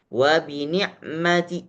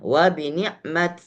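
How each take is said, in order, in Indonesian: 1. Frasa itu berakhir dengan vokal pendek yang samar. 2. Frasa itu berakhir dengan bunyi t mati. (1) "Kalau raum berarti boleh dibaca wa bi ni'mati" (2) "sukun seperti biasanya"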